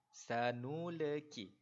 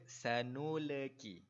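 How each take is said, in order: The two takes are said the same way.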